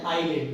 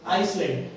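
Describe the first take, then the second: First: "आईलैंड" gliding from "आई" straight into L; silent S. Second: "आइसलैंड" with a clear S before the L; S sounded. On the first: Teacher telling students what to say, "आईलैंड" with silent S. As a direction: say "आईलैंड" with no S at all. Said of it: "एस का उच्चारण नहीं करेंगे". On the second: Teacher showing how it is written, "आइसलैंड" with S sounded. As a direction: read "आइसलैंड" as spelled, voicing the S. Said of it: "पर उसमें हम एस को". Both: Shown as a demonstration.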